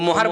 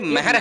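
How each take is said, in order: First: The first vowel sounds like 'o'. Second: The first vowel sounds like 'a'. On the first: The speaker calls it wrong. "वो मोहर बोलना जायज नहीं है भाई" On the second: The speaker calls it right. "ये महर है"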